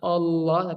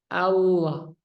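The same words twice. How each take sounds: First: The first vowel sounds like a rounded 'o'. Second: The first vowel sounds like a clear open 'a'. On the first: The speaker calls it wrong. "Jangan sampai ada O-nya" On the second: The speaker calls it right. "Harus jelas fathah A"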